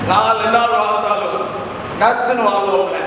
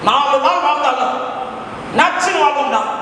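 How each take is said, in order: First: It is said in a Tirunelveli accent. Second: It is said in a forceful Madurai accent. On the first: "Tirunelveli பக்கம் நாகர்கோவில் பக்கம்லாம் போய் சொல்ல சொன்னேன்" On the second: "அந்த உசிலம்பட்டியில போய் சொல்ல சொன்னா அப்படின்னு சொல்லுவான்"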